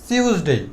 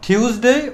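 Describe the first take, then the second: First: টিউসডে with an s for the t, "sius-dei"; second variant. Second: টিউসডে with an aspirated t, "thius-dei"; first variant. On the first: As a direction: begin টিউসডে on a hissed s. (টিউসডে-কে "সিউসডেই" বলা) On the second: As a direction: puff air on the t of টিউসডে. (টিউসডে-কে "ঠিউসডেই" বলা) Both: Shown as a demonstration. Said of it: "আমরা দুইটা শব্দ ব্যবহার".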